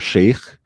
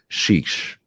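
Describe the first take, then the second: First: It is pronounced like the word sheikh. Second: It is pronounced like the word shish. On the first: The speaker calls it wrong. "it's not chic or sheikh" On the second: The speaker calls it right. "that's called"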